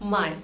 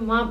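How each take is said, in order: First: The word ends in an 'eye' glide. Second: The word ends in a plain 'ah' vowel. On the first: The speaker calls it wrong. "माई को माई नहीं प्रोनाउंस करना है" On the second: The speaker calls it right. "माँ प्रोनाउंस करना है"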